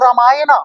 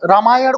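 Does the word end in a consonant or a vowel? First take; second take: vowel; consonant. First: The word ends with an added 'a' vowel. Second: The word ends in a consonant sound. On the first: This is how English speakers say it. The speaker calls it wrong. "अंग्रेज़ इसको रामायण को रामायणा बोलते हैं" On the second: This is the native way of saying it. The speaker calls it right. "रामायण को"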